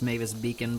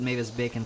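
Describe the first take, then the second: First: The surname has an 'ee' vowel, like beacon. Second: The surname has an 'ay' vowel, like bacon. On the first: The speaker calls it right. "I guess it's pronounced Mavis Beacon" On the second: The speaker calls it wrong. "I pronounce it Mavis Bacon for some reason"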